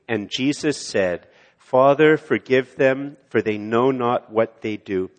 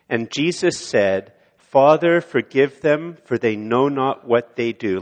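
First: Recited again with congregation. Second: Recited with congregation. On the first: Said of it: "Let's say it again". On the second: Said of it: "Could you say this with me?". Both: Shown as a demonstration.

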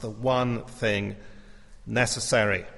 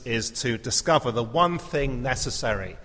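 First: "one thing" drawn out slowly, "one" weighted; slow stress on one thing. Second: Said in the usual way. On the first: Shown as a demonstration.

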